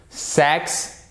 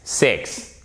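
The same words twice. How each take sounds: First: "Sex" with open E vowel, higher pitch; minimal pair drill. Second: "six" with short I vowel; minimal pair drill. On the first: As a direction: clear eh in "Sex", first of a pair. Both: Shown as a demonstration. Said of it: "On le fait ensemble".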